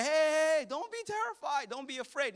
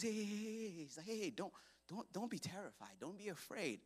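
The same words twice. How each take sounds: First: High-pitched call, starting loud then easing; urgent calling out. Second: Hushed, soft reassurance; gentle soothing. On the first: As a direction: call out to calm a panicking crowd. Moses calling out to panicking people. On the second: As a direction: soothe frightened people quietly. Moses soothing the scared people. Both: Acted.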